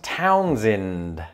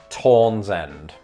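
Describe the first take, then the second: First: The second vowel is pronounced in an unusual way. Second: The first vowel is pronounced in an unusual way. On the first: The speaker calls it right. "It was the other vowel sound" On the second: The speaker calls it wrong. "they do something weird with the O part"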